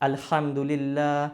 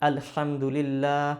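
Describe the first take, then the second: No difference in how they are said.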